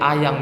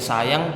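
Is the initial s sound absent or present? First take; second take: absent; present. First: The word begins with a vowel, no s. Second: The word begins with an s sound. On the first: The speaker calls it wrong. "tapi diubah menjadi ayang" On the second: The speaker calls it right. "Yang seharusnya menjadi sayang"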